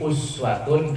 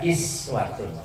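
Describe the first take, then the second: First: The word begins with an 'u' sound. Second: The word begins with an 'i' sound.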